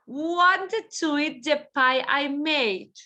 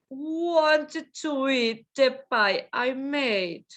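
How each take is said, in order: First: Said in the usual way. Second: "Wanted to eat the pie I made" drawn out; slow model. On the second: Shown as a demonstration. Teacher slowly models the sentence for the class. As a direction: say it slowly for learners.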